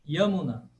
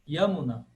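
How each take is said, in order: First: The name begins with a Y sound. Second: The same.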